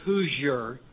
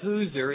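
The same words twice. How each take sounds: First: It is said like the Indiana word Hoosier. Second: It is said so it rhymes with loser. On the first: The speaker calls it wrong. "with the Indiana pronunciation" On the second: The speaker calls it right. "it rhymes with loser"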